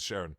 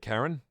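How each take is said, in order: First: The name begins with a soft SH sound. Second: The name begins with a hard K sound. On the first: The speaker calls it wrong. "I've for some reason always pronounced it as Sharon" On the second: The speaker calls it right. "Is that how you pronounce it? Oh, it is"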